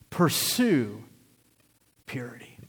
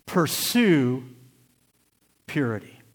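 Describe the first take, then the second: First: "purity" whispered, voice dropping to a breath. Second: Said in the usual way. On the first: Shown as a demonstration.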